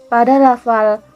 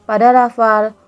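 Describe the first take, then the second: No difference in how they are said.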